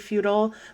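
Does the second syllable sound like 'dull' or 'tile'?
dull. The second syllable is a short 'dull' sound. "as an American, will often say feudal"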